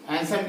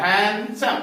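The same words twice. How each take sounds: First: Said in the usual way. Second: handsome said as two separate beats; handsome, syllable by syllable for a class; split into syllables. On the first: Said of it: "तो दो आता है". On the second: Shown as a demonstration. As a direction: break handsome after the first syllable, drawing out each part. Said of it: "ये one one".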